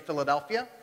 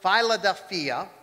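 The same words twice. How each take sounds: First: It is said in an Eastern Pennsylvania accent. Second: It is said with a Greek pronunciation.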